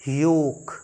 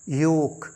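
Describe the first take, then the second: The two takes are said the same way.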